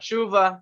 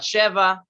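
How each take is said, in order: First: An oo vowel separates the sh and v. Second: An eh vowel separates the sh and v. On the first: "not shuva" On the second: "not sheva"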